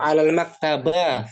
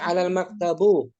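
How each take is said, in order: First: The last word ends in an a vowel. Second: The last word ends in a u vowel. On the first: "Fathah boleh nggak alal maktaba? Nggak boleh juga kan?" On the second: "Nggak boleh ya"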